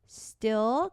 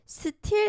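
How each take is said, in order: First: The t is tense and unaspirated, like a d. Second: The t is aspirated with a puff of air. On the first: The speaker calls it right. "무조건 된 소리로" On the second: The speaker calls it wrong. "still 아니고"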